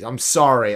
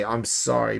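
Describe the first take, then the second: First: Said in the usual way. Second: Sorry drops right down, softer. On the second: Real, not acted. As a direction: let sorry fall away quietly.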